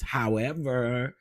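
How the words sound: It is said in a put-on Kimmy voice.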